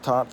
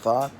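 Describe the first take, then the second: First: It begins and ends with a t sound. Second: It begins with th and ends with t. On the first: "Other people say thought or taught" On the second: "Other people say thought or taught"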